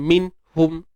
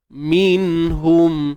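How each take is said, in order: First: The nun is cut off, splitting the word apart. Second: The nun flows smoothly with nasal resonance. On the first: The speaker calls it wrong. "bukannya min hum min min min" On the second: The speaker calls it right. "bila kita baca minhum"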